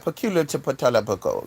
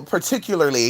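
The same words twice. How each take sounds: First: "Peculiar to patalabuco" as low garbled mash; extra syllables. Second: Said in the usual way. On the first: Shown as a demonstration. Reader botching "particularly", garbled "Peculiar to patalabuco". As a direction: pile nonsense syllables onto "Peculiar to patalabuco". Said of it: "you'll add too much shit". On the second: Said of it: "you'll be like".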